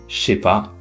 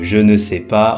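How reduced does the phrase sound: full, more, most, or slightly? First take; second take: most; full. First: The phrase is reduced as far as possible. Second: Every word is fully pronounced, including ne. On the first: "on est vraiment à la dernière transformation" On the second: "on est parti de je ne sais pas"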